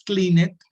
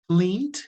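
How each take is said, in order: First: The ending is an extra separate syllable. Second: The ending is a short t sound only. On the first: The speaker calls it wrong. "No es clean it" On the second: The speaker calls it right. "se pronuncian como si todos terminaran con T"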